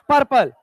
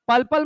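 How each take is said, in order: First: It has an r sound before the p. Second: It has an l sound before each p. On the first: The speaker calls it right. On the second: The speaker calls it wrong. "पल्पल मत कहने लगना"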